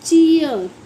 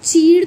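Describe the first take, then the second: First: The vowel glides into an ear sound. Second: The vowel is a plain long ee sound. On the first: The speaker calls it right. "इसे बोलते हैं चीयर" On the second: The speaker calls it wrong. "चीड़ तो नहीं पढ़ेंगे"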